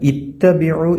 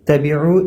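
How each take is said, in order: First: The word starts with an i vowel before t. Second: The word starts directly with a t sound. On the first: The speaker calls it right. "ഇത്തബിഉ എന്നാണ് ഉച്ചരിക്കേണ്ടത്" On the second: The speaker calls it wrong. "തബിഉ എന്നല്ല"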